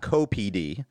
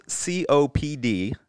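First: Co-P D with C and O run into "co"; slow co-P D, first two letters blended as one syllable; mispronounced abbreviation. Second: C O P D as four separate letters; spelled-out pronunciation. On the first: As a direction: say "co" as a word, then P D. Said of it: "not co-P D". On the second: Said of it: "It's pronounced C O P D". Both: Shown as a demonstration.

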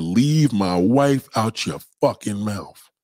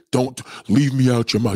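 First: "Leave my wife" slow and deliberate; slow, weighted quote stressing "wife"; emphatic retold quote. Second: Said in the usual way. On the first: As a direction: draw out "my wife" and "fucking mouth". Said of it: "He said". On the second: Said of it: "he didn't say".

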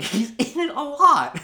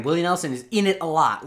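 First: Giggling through the words; laughing. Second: Said in the usual way. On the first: Real, not acted. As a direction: laugh while repeating it. Repeats the line, cracking up.

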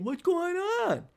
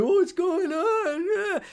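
First: High, slowed whiny plea; mock the clingy guy, stretched and high; needy ex. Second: High, drawn-out whiny mock voice; mock the clingy boyfriend, stretched and high; needy beta guy. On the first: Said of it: "you poor girls". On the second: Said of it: "None of that stupid, dopey, pussy, beta boy shit".

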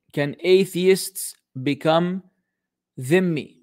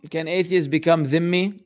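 First: Slow and deliberate, with gaps between words; half-speed, spaced-out question; slow re-reading. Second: Said in the usual way. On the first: Real, not acted. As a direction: spell the question out word by word. Re-reads the question word by word.

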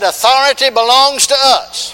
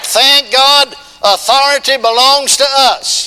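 First: Loud, high preaching repeat. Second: Loud, high, slowed preaching cry. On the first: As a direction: ring it out for the church. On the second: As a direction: proclaim it to the whole church. Preacher building to full force. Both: Acted.

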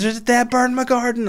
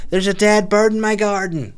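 First: Very high squeaky caricature; silly put-on voice. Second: Much higher, odd mock neighbour voice; silly put-on voice. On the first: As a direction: squeak it out like a cartoon lady. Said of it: "why I've done that voice". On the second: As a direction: play her as a squeaky caricature. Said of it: "that's not how she speaks".

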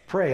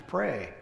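First: Said in the usual way. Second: Soft single word. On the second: Shown as a demonstration. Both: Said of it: "what can I do during those times".

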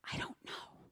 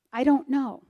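First: Toneless whisper, almost no voice; whispered admission. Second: Said in the usual way. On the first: Retold or imitated. Mother whispering her doubt to God about trusting him. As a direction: confess it under your breath.

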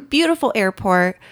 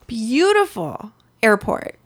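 First: Said in the usual way. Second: Slow, savoring "beautiful airport" with a lingering "beautiful"; drawn-out admiring, as if picturing it; dreamy praise. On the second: Real, not acted. Traveler recalling the Amsterdam airport, slow dreamy praise.

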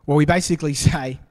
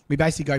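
First: Words broken by a real laugh, louder and quicker. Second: Said in the usual way. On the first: Real, not acted. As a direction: laugh through it, amused at us. Laughs at human excuses.

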